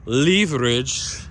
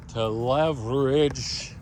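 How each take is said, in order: First: Leverage said LEE-ver-idge, long ee, slow and louder; British leverage. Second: Leverage said LEV-er-idge, short e, slow; drawn-out American leverage with LEV stressed. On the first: Vlogger contrasts the word, British LEE-ver-idge. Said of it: "the British way of pronouncing it". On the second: Vlogger sets up the word, slow American leverage. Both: Shown as a demonstration.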